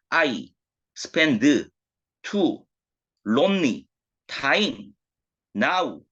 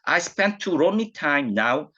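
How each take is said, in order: First: Each syllable is pronounced separately, Korean style. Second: The words run together with natural English linking. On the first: The speaker calls it wrong. "한국식 옛날 분들의 영어로 읽어보면" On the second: The speaker calls it right. "그냥 영어식으로 연음이 된 표현인데요"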